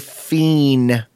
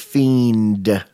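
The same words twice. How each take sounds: First: The word is said in a street-slang pronunciation. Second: The word is said in a standard pronunciation. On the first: "it's kind of street slang now to say fiend" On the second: "For fiend"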